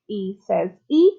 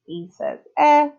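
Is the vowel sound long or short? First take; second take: long; short. First: The vowel sounds like its letter name. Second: The vowel is a short sound. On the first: "it changes the vowel so that it says its name" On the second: "we've already learned our short vowel sounds"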